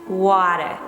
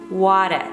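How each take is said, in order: The two takes are said the same way.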